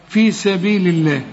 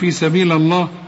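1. اللام في Allah مرقّقة ونحيفة. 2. اللام في Allah مفخّمة وممتلئة. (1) "تلقى لفظ الجلالة" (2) "مش تقول في سبيل الله"

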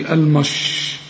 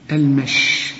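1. يُنطق المقطع ثقيلاً ومفخّماً. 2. يُنطق المقطع خفيفاً ورقيقاً. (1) "ما تقولش المش" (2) "المش زي ما تقول المشي كده"

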